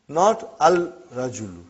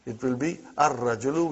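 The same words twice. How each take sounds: First: Al-rajulu said with a clear lam, as the wrong form; wrong take: sound the l in al-rajulu. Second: Ar-rajulu with the l dropped into a doubled r; right take: ar-rajulu, rolled double r; right assimilated form. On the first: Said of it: "It will be wrong to say al-rajulu". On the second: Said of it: "We won't pronounce lam". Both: Shown as a demonstration.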